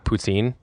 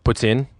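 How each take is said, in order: First: The word has a plain English pronunciation. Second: The word has a French Canadian pronunciation. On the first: "it's called poutine" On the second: "French Canadian it's a poutine"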